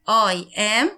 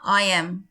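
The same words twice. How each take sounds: First: Two full words are said separately. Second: The words are contracted into one syllable.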